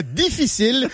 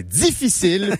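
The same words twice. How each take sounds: First: Difficile with a bare D; non-Quebec D. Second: Difficile said as dzifficile; Quebec D. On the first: Showing the wrong way, difficile with plain D. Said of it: "pas difficile". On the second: Showing the local way, difficile as dzifficile. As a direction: buzz a z after the D of difficile. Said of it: "on ajoute un Z". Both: Shown as a demonstration.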